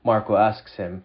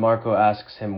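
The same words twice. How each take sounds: The two takes are said the same way.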